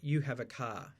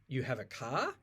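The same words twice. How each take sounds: First: The pitch falls at the end. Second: The pitch rises at the end. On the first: It states a fact. "the statement" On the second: It asks a question. "So I went up at the end"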